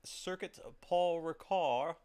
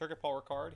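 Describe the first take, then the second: First: It is said with an attempted French accent. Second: It is said with a plain English accent.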